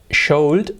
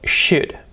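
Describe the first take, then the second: First: An L sound is pronounced in the word. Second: No L sound is pronounced in the word. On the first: The speaker calls it wrong. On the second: The speaker calls it right.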